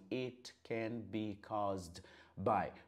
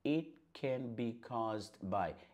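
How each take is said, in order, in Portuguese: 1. Ela é dita devagar, cada palavra separada. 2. Ela é dita rapidamente, o T quase some. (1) "como um professor, tudo pausado" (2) "Quando você falar isso aqui rápido, você percebe que esse T, ele quase que some"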